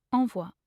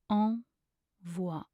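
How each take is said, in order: First: Said in the usual way. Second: Slow, two separated syllables. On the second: Shown as a demonstration. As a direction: pause between the two syllables. Pronunciation guide, broken-down take.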